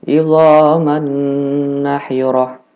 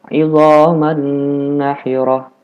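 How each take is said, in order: Both takes have the same delivery.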